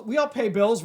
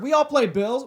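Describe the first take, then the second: First: Said in the usual way. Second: "play" said with an L, as play bills; slip of the tongue. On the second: Real, not acted. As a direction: trip over "play", put an L in pay. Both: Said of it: "Play bills".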